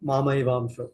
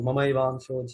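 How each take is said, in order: First: The first vowel is said long. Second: The first vowel is said short.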